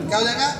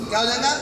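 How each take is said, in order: No difference in how they are said.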